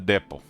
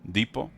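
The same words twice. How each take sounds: First: It is pronounced the British way. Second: It is pronounced the American way. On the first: "United Kingdom uh, English, it's uh" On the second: "Americans uh, say depot, like it's deep"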